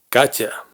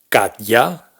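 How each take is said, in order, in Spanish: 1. Una t suave se une directamente con la 'a'. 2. Una t dura va seguida de un 'ya' completo. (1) "sino Katya" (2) "no pronunciamos Katya"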